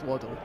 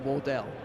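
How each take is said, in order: First: The name is pronounced as Waddle. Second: The name is pronounced as Wardell. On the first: The speaker calls it right. "it is Waddle" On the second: The speaker calls it wrong. "for the entire interview I called him Wardell"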